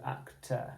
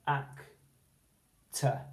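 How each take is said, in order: First: "actor" as ac-TER with a full er ending. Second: "actor" as AC-tuh, syllables apart, weak schwa at the end; speaking voice. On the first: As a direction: give the second syllable of "actor" a long er. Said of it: "instead of actor". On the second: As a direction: read "actor" with a short unstressed uh ending. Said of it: "but with our speaking voice". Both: Shown as a demonstration.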